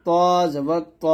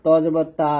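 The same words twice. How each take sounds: First: ত held long with a rounded heavy o; thick to. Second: তা with an open aa, light and plain; thin taa. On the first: Teacher leads repeat-after-me, thick to. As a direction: draw out ত, thick and full. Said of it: "সুন্দরভাবে উচ্চারণটা করতে হবে". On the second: Teacher mimics a common mistake, thin taa. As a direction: say তা as Bengali aa. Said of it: "এই প্রত্যেকটা উচ্চারণ কিন্তু ভুল". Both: Shown as a demonstration.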